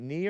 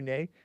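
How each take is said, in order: First: The word ends in an ee vowel. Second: The word ends in an ay vowel. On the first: The speaker calls it wrong. "Is it Nee or nay?" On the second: The speaker calls it right. "it's pronounced nay"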